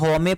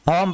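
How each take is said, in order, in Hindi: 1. यह शब्द एक अतिरिक्त स्वर की आवाज़ पर खत्म होता है। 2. यह शब्द m की आवाज़ पर खत्म होता है। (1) "अगर ई की साउंड होता है तो यहाँ होमे पढ़ते" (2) "लेकिन इसको हम क्या पढ़ते हैं, होम पढ़ते हैं"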